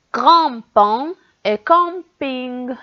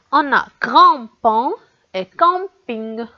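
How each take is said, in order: First: Grand-pont et camping, spelled out slowly; slow demo words. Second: Said in the usual way. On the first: Shown as a demonstration. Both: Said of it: "on entend gr dans le mot grand-pont".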